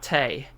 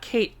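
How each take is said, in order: First: The name is said with Japanese syllables, ka-te. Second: The name is said like the English word Kate. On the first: The speaker calls it right. "That was um, pronounced in um, Japanese" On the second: The speaker calls it wrong. "not Kate"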